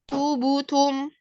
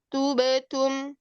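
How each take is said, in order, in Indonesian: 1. Bunyi b diikuti vokal u yang membulat. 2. Bunyi b memantul dengan vokal netral, tidak membulat. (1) "condongnya ke harokat yang domah" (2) "kan harusnya seperti itu"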